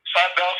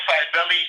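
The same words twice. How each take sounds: First: Cybele said as SY-bell; soft C, two syllables. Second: Cybele said as SY-bell-ee; soft C, three syllables. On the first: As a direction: say Cybele with an S sound and a silent final E. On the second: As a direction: say Cybele with an S sound and a final "ee". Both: Shown as a demonstration. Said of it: "it's pronounced in different ways".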